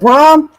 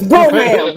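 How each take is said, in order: First: The name is said as one syllable. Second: The name is said as two syllables. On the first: The speaker calls it wrong. "It ain't no goddamn Brom" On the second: The speaker calls it right. "It's Broham"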